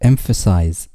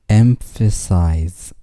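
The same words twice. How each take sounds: First: Said in the usual way. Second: Slow model. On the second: Shown as a demonstration. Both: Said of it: "vocabulary drill, word repeated".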